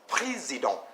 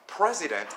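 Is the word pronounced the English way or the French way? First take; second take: French; English. First: It is pronounced with French sounds. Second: It is pronounced with English sounds.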